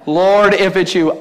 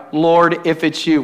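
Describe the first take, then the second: First: Slow, drawn-out mocking repeat; mock incredulity. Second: Said in the usual way. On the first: Preacher throwing Peter's doubting words back, mock incredulous. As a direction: stretch it out in disbelief. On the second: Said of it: "And Peter replied".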